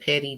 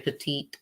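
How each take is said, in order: First: The word sounds like 'petty', stressed first. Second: The word sounds like 'petite', stressed last. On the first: The speaker calls it right. "that's how you say it" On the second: The speaker calls it wrong. "Some say petite"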